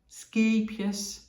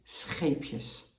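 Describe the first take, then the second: First: The word starts with a hard 'sk' sound. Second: The word starts with a throaty 'sch' sound. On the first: The speaker calls it wrong. "they have trouble pronouncing the word" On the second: The speaker calls it right. "but it is scheepjes"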